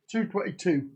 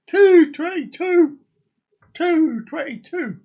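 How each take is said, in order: First: Said in the usual way. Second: Higher, louder, slower, a mock cry of triumph; excited exclamation. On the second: Streamer announcing the clock time, excited exclamation. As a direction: announce the time like big news.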